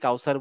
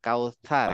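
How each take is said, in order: First: The middle consonant is a plain s sound. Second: The middle consonant is a th sound. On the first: The speaker calls it wrong. "যেটা আমরা সূরা কাউসার বলি" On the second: The speaker calls it right. "কাউসার না, কাউসার"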